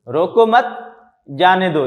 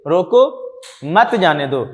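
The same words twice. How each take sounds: First: रोको मत, a clear break, then जाने दो; group रोको with मत, pause, finish जाने दो; pause after मत. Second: रोको alone and rising, break, then मत जाने दो; pause after रोको. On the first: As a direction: stop for a breath between मत and जाने दो. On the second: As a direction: stop after रोको, run मत जाने दो together. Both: Shown as a demonstration. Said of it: "हम इसको इस अंदाज में पढ़ेंगे".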